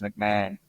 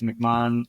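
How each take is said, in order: First: The name is said the American way. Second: The name is said the Australian way. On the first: "in America it's McMahon" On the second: "in Australia it's McMahon"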